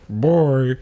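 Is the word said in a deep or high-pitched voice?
high-pitched. The word is said in a high, thin voice. "she has a voice like a little flute"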